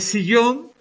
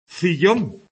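First: The word begins with an s sound. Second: The word begins with a th sound. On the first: "en vez de" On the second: "con C, lo pronuncian así"

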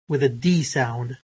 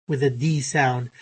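The two takes are said the same way.

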